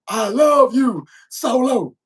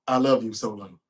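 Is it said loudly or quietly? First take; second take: loudly; quietly. First: It is said loudly and proudly. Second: It is said quietly and flatly.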